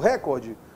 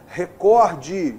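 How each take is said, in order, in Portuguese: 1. A sílaba tônica está na primeira sílaba. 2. A sílaba tônica está na segunda sílaba. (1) "Não" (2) "O correto é recorde"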